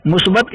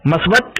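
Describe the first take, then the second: First: मुस्बत with a clear u in the first syllable; correct pronunciation. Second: मस्बत with a short a, the wrong form; wrong pronunciation. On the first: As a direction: say मुस्बत starting with mu. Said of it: "ये सही लफ्ज़ है". (सही उच्चारण मुस्बत) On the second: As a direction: say मस्बत with a for the first vowel. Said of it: "ये गलत लफ्ज़ है". (ग़लत उच्चारण मस्बत) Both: Shown as a demonstration.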